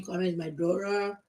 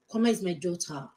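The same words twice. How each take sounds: First: Kwame said like an American, daughter as dora; mock fake American accent. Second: Said in the usual way. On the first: Parody of people faking an American accent. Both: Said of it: "Stop saying".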